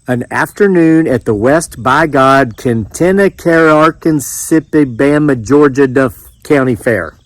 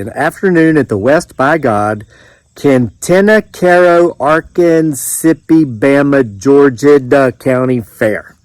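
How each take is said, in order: First: It is said at a faster pace. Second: It is said slowly.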